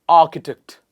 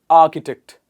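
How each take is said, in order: The two takes are said the same way.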